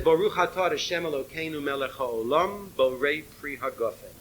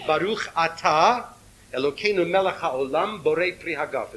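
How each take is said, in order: First: It is said in Lithuanian Ashkenazi Hebrew pronunciation. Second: It is said in Sephardic Hebrew pronunciation.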